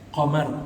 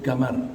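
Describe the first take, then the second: First: It begins with a deep Q sound, standard Arabic. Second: It begins with a hard G, Saudi style.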